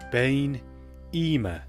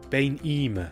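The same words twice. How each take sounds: First: It is said slowly and carefully. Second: It is said at a normal speaking speed. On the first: "and then slowly too" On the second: "I'll pronounce them like I would naturally"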